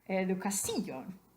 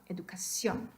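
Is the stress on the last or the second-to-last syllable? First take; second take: second-to-last; last. First: The stress is on the second-to-last syllable. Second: The stress is on the last syllable. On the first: The speaker calls it wrong. "If you accidentally or mistakenly put the accent over the I, it would be educación" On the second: The speaker calls it right. "Queremos decir educación"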